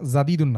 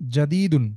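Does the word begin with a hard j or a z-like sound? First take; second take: z-like; hard j. First: The first consonant sounds soft, like a z. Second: The first consonant is a hard j sound. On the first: The speaker calls it wrong. "জাদিদুনটা জায়ের মতো হয়ে যাচ্ছে" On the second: The speaker calls it right. "জিমটা শক্ত হবে"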